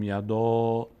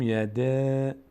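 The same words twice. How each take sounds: First: "یدا" with a full, rounded, drawn-out final A; full, heavy reading. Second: "یده" with a thin, front, drawn-out final A; thin, light reading. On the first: Teacher showing the reading to avoid, "یدا" with heavy rounded A. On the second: Teacher showing the correct reading, "یده" with thin long A. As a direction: stretch "یده" on a light "a" as in cat. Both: Shown as a demonstration. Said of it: "باریک خواندن و پر خواندن رو دقت بکنید".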